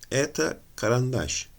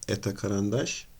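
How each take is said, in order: First: It is said as a plain statement. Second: It is said as a question, emphasising karandaş. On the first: This is a pencil. "Bu bir kurşun kalemdir cümlesiyle" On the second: Asks whether this is a pencil. "vurguyu eta karandaş diye yaptığımızda bunu bir soru haline getirmiş oluyoruz"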